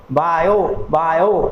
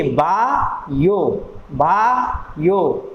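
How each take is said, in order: First: Said in the usual way. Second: बायो split slowly into बा and यो, a gap between; slow teacher's split, बा ... यो; syllable by syllable. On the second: Shown as a demonstration. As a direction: draw out बा, pause, then यो. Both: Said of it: "pronunciation आपको करते रहना है".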